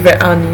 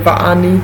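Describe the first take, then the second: First: The conjunction is pronounced with the vowel e. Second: The conjunction is pronounced with the vowel a. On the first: The speaker calls it wrong. "Není" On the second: The speaker calls it right.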